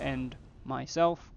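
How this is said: There is a pause between 'end' and 'myself'. The speaker will end the stream personally. The speaker calls it right. "there is a comma in there"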